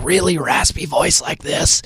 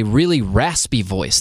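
First: Put-on raspy voice, a bit higher. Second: Said in the usual way. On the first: Shown as a demonstration. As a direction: demonstrate a really raspy voice. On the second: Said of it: "People develop this, like, really raspy".

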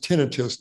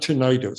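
First: Tinnitus stressed on the first syllable, TIN-ih-tus; correct pronunciation. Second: Tinnitus said as tih-NIGH-tus; common mispronunciation. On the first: Doctor teaching everyone how the word is pronounced, tinnitus as TIN-ih-tus. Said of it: "the word is pronounced tinnitus". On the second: Doctor showing listeners the way to avoid, tinnitus as tih-NIGH-tus. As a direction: stress the middle of tinnitus, with a long i like "eye". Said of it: "not tinnitus". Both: Shown as a demonstration.

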